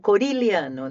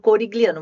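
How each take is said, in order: First: The middle consonant is said as an L-like sound. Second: The middle consonant is said as a hard G. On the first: It follows the original Italian pronunciation. The speaker calls it right. "o correto é o corilhano, né? Um, um som de L ali" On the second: It is easier for people to understand and spell. The speaker calls it wrong. "eu falo corigliano porque é mais fácil de assimilação"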